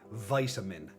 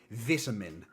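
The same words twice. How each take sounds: First: It is said with an American pronunciation. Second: It is said with a non-American pronunciation. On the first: "Americans would say vitamin. It's just wrong" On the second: "I would say vitamin"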